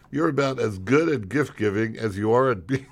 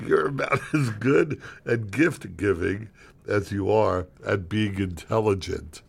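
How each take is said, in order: First: Cracking up while reading the insult; barely holding in a laugh; laughing mid-line. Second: Slow deliberate retake. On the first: Real, not acted. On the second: Acted. Retakes insult line composed.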